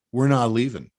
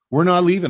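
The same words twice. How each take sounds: First: Said in the usual way. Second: Louder and higher, hitting NOT; defiant shout. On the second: Real, not acted. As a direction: punch it out like a rally cry. Defiant rallying repeat.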